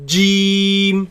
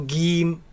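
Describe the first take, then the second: First: The first sound is a firm, fully closed j. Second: The first sound is a hard g. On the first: The speaker calls it right. "It is a solid letter. The makhraj of it completely closes. So J, J, Jim" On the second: The speaker calls it wrong. "it is incorrect to pronounce it as Gim with a G, G sound"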